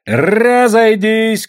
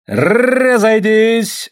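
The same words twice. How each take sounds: First: High, loud, slow drawn-out order; long booming call; shouted command. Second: High, loud, very slow drawn-out order; long police shout; shouted command. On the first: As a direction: constable bellows at the crowd. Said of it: "кричал урядник Попов". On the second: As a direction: bellow at the crowd to disperse. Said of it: "раздался крик". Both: A narrator's reading.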